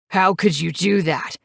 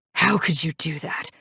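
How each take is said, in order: First: A mild narrated yell, not much louder; a touch of angry accusation. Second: Said in the usual way. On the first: A narrator's reading. Knives confronting Mary across the table, mild angry yell. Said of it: "he yells at me". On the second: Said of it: "He continues to scream".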